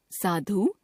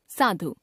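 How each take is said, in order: First: साधु ending on long "oo"; mispronounced final vowel. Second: Said in the usual way. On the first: Shown as a demonstration. Teacher showing a common error, साधु with long final u. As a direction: stretch the end of साधु, "saa-dhoo". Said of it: "अशुद्ध". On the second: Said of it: "शुद्ध".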